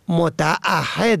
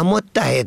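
First: The word is said as motaahhed, with a glottal break. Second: The word is said as mottahed, without a glottal break. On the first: The speaker calls it right. "هر کس به ادای دین خود متعهد است" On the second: The speaker calls it wrong. "نه متحد است"

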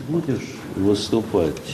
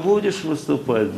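First: The voice stays at a normal pitch. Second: The voice is raised to a high pitch. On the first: Needed information is asked for plainly. "я скажу в другой тесситуре" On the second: The person is being mocked and discredited. "За счет повышения тембра могу"

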